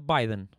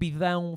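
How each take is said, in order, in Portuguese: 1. O nome é dito com sons ingleses. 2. O nome é dito com sons portugueses.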